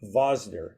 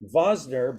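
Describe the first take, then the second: First: The name begins with a V sound. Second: The name begins with a V sound.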